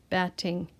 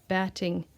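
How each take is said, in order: Both takes have the same delivery.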